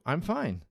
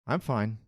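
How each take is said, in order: First: The voice sounds positive and content. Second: The voice sounds flat and unhappy. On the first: The speaker is doing well. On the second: The speaker is not well but won't talk about it.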